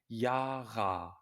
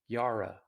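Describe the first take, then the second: First: The final vowel is a full, clear ah. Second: The final vowel is reduced to a weak uh. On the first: The speaker calls it right. "But in German, an A is pronounced like an A" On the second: The speaker calls it wrong. "In English, we would pronounce this name Yara"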